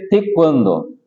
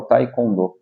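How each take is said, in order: First: "taekwondo" opening on "teh", then "kwan-do"; original pronunciation. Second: "taekwondo" opening on "tai", no w glide; the Brazilian "taicondô" for "taekwondo"; Brazilian pronunciation. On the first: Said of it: "se pronuncia". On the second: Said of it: "É no Brasil que fala". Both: Shown as a demonstration.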